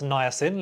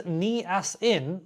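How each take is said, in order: First: Niacin is pronounced in the standard way. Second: Niacin is pronounced in a garbled way. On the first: The speaker knows the word. The speaker calls it right. "one that can pronounce niacin" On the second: The speaker does not know the word. The speaker calls it wrong. "one that says niacin"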